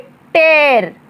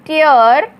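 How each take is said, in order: First: The vowel sounds like 'air'. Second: The vowel sounds like 'ear'. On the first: To rip something apart. "उच्चारण सुनिए ध्यान से, टेर" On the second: Drops of water from crying. "इसका उच्चारण होगा टियर, इसका मतलब होता है आंसू"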